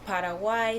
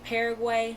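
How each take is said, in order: First: It is said without the American pronunciation. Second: It is said with the American pronunciation.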